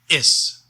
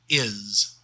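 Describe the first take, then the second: First: The word ends with a hissing S sound. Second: The word ends with a buzzing Z sound. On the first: The speaker calls it right. "we pronounce it is with an S sound" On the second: The speaker calls it wrong. "not with a Z sound like we usually do in English"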